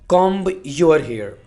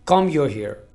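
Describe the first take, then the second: First: The b at the end of comb is pronounced. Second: The b at the end of comb is silent. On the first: The speaker calls it wrong. "आपने ऐसे नहीं बोलना" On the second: The speaker calls it right. "यहाँ पर आपने B को silent रखना है। ... ऐसे बोलेंगे आप"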